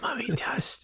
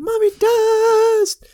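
First: The phrase is spoken in a whisper. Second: The phrase is screamed loudly. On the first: It sounds ominous and creepy. The speaker calls it right. "It a lot more ominous by hearing him go" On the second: It sounds less ominous. The speaker calls it wrong. "instead of"

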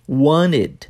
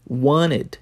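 No difference in how they are said.

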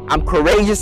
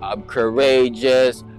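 First: It is said loudly with high energy. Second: It is said softly with low energy.

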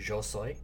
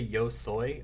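First: The word yo starts with a z-like sound. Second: The word yo starts with a y sound. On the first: "it changes that Y from a ya to z" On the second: "I don't say yo soy"

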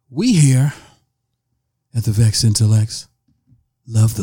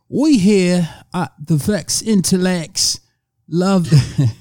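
First: It is said in the speaker's natural accent. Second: It is said in an attempted British accent.

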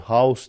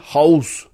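First: It is said in a plain English way. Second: It is said harshly, in a German-style accent.

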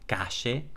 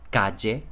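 First: It is said with the Rioplatense 'sh' sound. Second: It is said with a 'y' sound, Mexican-Spanish style.

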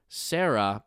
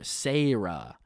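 First: It is said in a plain accent. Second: It is said in a Southern accent.

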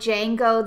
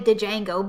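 First: The initial D is silent. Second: The initial D is pronounced. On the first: The speaker calls it right. "the D is probably silent. Just like, you know, Django" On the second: The speaker calls it wrong. "You don't say Django"

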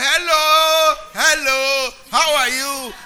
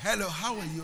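First: It is shouted loudly. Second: It is said at normal volume.

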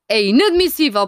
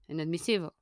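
First: It is said forcefully, with more energy. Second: It is said calmly, with less energy. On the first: The speaker calls it wrong. "Mas ele não fala assim" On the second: The speaker calls it right. "Ele fala com mais calma"

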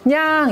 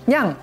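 First: The meow is louder and drawn out longer. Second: The meow is short and fairly soft.

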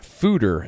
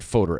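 First: The first vowel is an 'oo' sound. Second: The first vowel is not an 'oo' sound. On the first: The speaker calls it right. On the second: The speaker calls it wrong.

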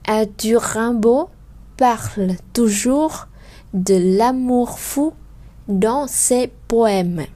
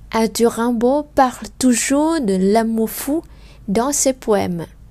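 First: It is spoken slowly with every final sound clear. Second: It is spoken faster with some final sounds dropped. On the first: "je vais faire clairement des sons" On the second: "nếu như mình đọc nhanh hơn"

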